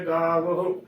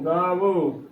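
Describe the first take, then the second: First: The word ends in an 'ah' sound. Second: The word ends in an 'o' vowel. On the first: The speaker calls it right. "ਗਾਵਹ ਉਚਾਰਨ ਕਰਨਾ, ਹਾਏ ਨੂੰ ਔਂਕੜ ਲੱਗੀ ਹੈ" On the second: The speaker calls it wrong. "ਗਾਵੋ ਉਚਾਰਨ ਕਰ ਦਿੰਦੀਆਂ ਨੇ, ਇਹ ਵੀ ਗਲਤ ਉਚਾਰਨ ਹੈ"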